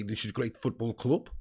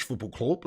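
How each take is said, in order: First: Low, soft Dutch-accented line, club said as klub; general Dutch accent. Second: Football club said as klub; Dutch pronunciation. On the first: Showing the Dutch accent to chat, low and soft. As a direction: Dutch manager voice, club with a u vowel. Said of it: "just do a general Dutch accent and say". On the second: Showing how the manager says "football club", Dutch u vowel. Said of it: "like this". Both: Shown as a demonstration.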